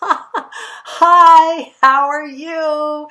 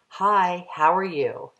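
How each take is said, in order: First: It is said through light laughter. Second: It is said in a plain, neutral way.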